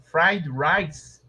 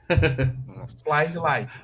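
First: The word rice begins with a normal r sound. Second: The word rice begins with an l sound. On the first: "que é fried rice" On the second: "Eles falam fried lice"

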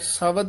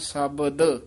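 First: The middle consonant is not a clear b. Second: The middle consonant is a clear b. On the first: The speaker calls it wrong. "ਸ਼ਬਦ ਨਹੀਂ ਕਹਿਣਾ" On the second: The speaker calls it right. "ਇਹਨੂੰ ਬੱਬੇ ਨਾਲ ਉਚਾਰਨ ਕਰਨਾ"

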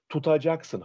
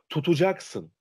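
First: The second vowel is a full open 'a'. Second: The second vowel is narrowed to 'u'. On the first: The speaker calls it wrong. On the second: The speaker calls it right.

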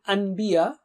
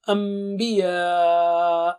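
First: A plain n sound comes before the b. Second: A long nasal m sound comes before the b. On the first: The speaker calls it wrong. "instead of saying anbiya" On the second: The speaker calls it right. "we should do it with Ghunna, that is stretch double with nasal sound"

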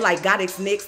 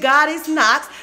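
First: The last word rhymes with Twix. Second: The last word rhymes with knocks. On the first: "like God is Nix, like Twix" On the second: "She gave me God is Knox, so I could be like knock your ass out"

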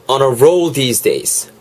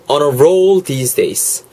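Both takes have the same delivery.

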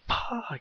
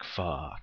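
First: It is screamed loudly in anger. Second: It is said with mild, let-down disappointment. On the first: The speaker is furious. "you just scream it and you're just letting anger go" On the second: Something unfortunate happened. "like damn, that sucks"

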